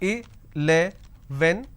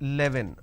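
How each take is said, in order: First: The word is said in the standard way. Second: The word is said in a regional way. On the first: The speaker calls it right. "So I can pronounce this as eleven" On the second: The speaker calls it wrong. "lot of people pronounce this as eleven... that's a mispronunciation"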